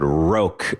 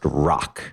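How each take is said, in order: First: The name is said with a long 'o' vowel. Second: The name sounds just like the word 'rock'. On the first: The speaker calls it wrong. "I think I pronounced on the episode roque" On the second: The speaker calls it right. "it's properly pronounced rock"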